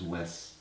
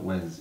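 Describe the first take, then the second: First: The name ends with a hissing s sound. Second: The name ends with a buzzing z sound. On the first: The speaker calls it right. "don't pronounce it with a Z" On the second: The speaker calls it wrong. "It's not Wes"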